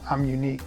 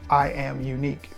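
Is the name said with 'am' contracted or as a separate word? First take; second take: contracted; separate. First: The words 'I am' are contracted together. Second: The word 'am' is said as a separate word. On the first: This is how people usually say the name. "They pronounce it I'm Unique" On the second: This is the name as it really is. "but her name is actually I Am Unique"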